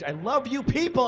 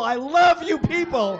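First: Affectionate. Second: Loud, higher, booming shout of love; shouted declaration. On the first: Comic on stage greeting crowd. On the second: Comic bellowing love at the crowd, shouting. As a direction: yell it out to the whole room. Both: Acted.

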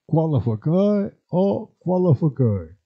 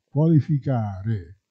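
First: "Qualificare" said as kwalafakae, the i sounds turned to a; "qualificare" in dialect: kwa-la-fa-kae, final re dropped; "Qualificare o qualificare", kwalafakae then kwalafakei; dialect pronunciation. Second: Said in the usual way. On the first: Shown as a demonstration. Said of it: "quando la U non è bene scandita". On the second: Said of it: "si può trasformare in W".

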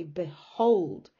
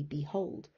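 First: B'HOLD, first syllable barely there; slow, heavy hold in behold; stress on HOLD. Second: Behold as a clear BEE-hold; BE fully pronounced. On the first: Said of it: "the stress is on hold". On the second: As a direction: give the be of behold its full vowel. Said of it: "almost don't even pronounce the B". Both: Shown as a demonstration.

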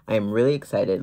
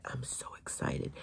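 First: Said in the usual way. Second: Whispered, hushed excitement; whispering excitement about the new set; excited whisper. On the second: Real, not acted. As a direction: whisper it like a thrilling secret.

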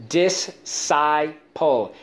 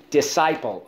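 First: "Disciple" very slowly as dis, sigh, pole; slow breakdown of "Disciple" with full vowels; syllable by syllable. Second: Said in the usual way. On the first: Shown as a demonstration. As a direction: sound out "Disciple" in three beats. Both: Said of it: "Let's go".

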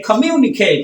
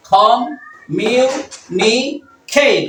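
First: Said in the usual way. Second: Very slow "communicate" in four separate parts; long pause after each syllable of "communicate"; teacher's slow syllable demo. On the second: Shown as a demonstration. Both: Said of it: "কয়টা হলো?".

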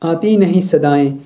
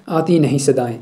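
First: Slow, drawn-out recited line; poem recitation. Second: Said in the usual way. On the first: Acted. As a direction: recite the line slowly, lingering on नहीं. Recited verse vs explanation.

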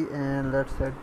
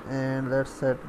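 No difference in how they are said.

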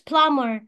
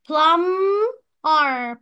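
First: Said in the usual way. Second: "plumber" in two parts, first drawn long and loud; split into syllables. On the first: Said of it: "تقسيمة الكلمة". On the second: Shown as a demonstration. Teacher shows two syllables, "plumber" said split in two. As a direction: break "plumber" as plum... mer. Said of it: "لما اجي اقراها بتتقسم لجزئين".

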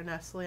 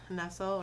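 First: Nestle said as "NESS-lee"; alternative pronunciation of Nestle. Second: Nestle said as "NESS-ul"; first pronunciation of Nestle. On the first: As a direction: say Nestle with an "ee" on the end. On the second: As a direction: say Nestle to rhyme with "vessel". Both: Shown as a demonstration. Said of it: "I'm not sure how she pronounces it".

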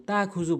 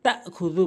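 First: তাখুযু gliding through a long "taa"; dropped hamza. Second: তাখুযু with a sharp catch after "ta"; sounded hamza. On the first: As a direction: say তাখুযু smoothly, with no glottal stop. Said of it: "হামজার উচ্চারণ এখানে বাদ দিয়ে ফেলে". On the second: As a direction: stop the throat briefly in তাখুযু: ta'-khu-dhu. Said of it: "বলতে হবে". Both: Shown as a demonstration.

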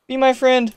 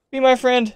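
No difference in how they are said.

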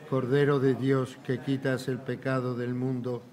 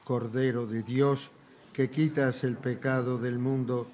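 Both takes have the same delivery.

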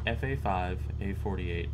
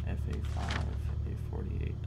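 First: Said in the usual way. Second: Quietly whispering a code to memorize it. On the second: Real, not acted.

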